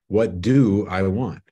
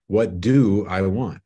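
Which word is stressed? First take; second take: do; do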